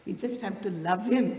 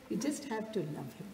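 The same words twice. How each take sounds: First: Said in the usual way. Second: Much softer, intimate repeat; softer echo. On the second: Shown as a demonstration. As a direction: let it sink in quietly. Repeated for emphasis.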